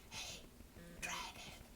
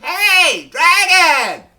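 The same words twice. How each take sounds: First: It is whispered very softly. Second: It is shouted very loudly.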